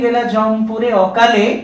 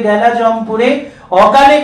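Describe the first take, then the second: First: A pause comes after 'akale', ending the phrase there. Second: A pause comes before 'akale', joining it to the next phrase. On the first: The hero went to the land of death before his time. The speaker calls it right. "Birbahu তার মৃত্যুর পর অসময় সমন ভবনে গেছেন" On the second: The untimely death is wrongly tied to the goddess speaking. The speaker calls it wrong. "এইভাবে তাদের কানে কিন্তু আসতো"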